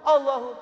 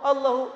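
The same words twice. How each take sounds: Both takes have the same delivery.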